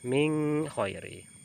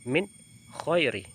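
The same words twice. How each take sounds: First: The n sound is hidden and nasalized. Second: The n sound is pronounced clearly and fully. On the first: The speaker calls it wrong. "tidak boleh" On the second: The speaker calls it right.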